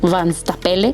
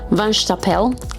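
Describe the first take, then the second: First: The name ends on an added vowel sound. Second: The name ends on a consonant sound. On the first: This is the speaker's own habitual way of saying it. "pero yo les digo Van Stapele" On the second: This is the proper way to say the name. "creo que así se pronuncian"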